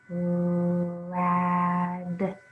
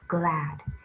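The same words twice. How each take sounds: First: The word is said slowly, one sound at a time. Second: The word is said quickly as one smooth unit. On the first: "Sound it out" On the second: "Read it fast"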